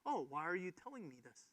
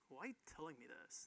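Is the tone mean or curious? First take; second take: curious; mean. First: It sounds curious and inquisitive. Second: It sounds mean and attitudey.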